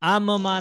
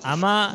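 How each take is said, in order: First: The two m sounds are separated by a break. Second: The m is a single short sound. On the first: "आम माँ नहीं पढ़ना" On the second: "अमा नहीं पढ़ना है"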